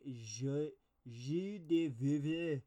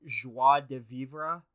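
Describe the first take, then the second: First: Slow, halting "je de vivre" with a mangled French vowel; clumsy attempt at "je de vivre" in French; fumbled French. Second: "Joie de vivre" said slowly and deliberately, louder; careful French attempt. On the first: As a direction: sound out "je de vivre" slowly and badly. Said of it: "Wow, that's not right". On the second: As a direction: draw out "Joie de vivre" as if testing the sound. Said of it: "I fucking hate French". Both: Shown as a demonstration.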